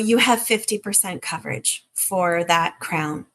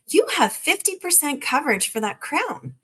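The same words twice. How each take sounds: First: It is said in a gloomy, downbeat tone. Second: It is said in an upbeat, excited tone. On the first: The coverage is disappointing news. The speaker calls it wrong. "The Debbie Downer way" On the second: The coverage is good news. The speaker calls it right. "or a little more excitement"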